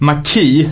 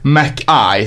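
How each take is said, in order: First: The last syllable sounds like 'key'. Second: The last syllable sounds like 'eye'. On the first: The speaker calls it wrong. "det är inte MacKaye som är key-nyckel" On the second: The speaker calls it right. "det är MacKaye som är öga"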